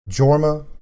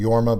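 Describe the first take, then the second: First: The name begins with a J sound. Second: The name begins with a Y sound. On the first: "uses the J pronunciation of the J" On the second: "He should be Yorma"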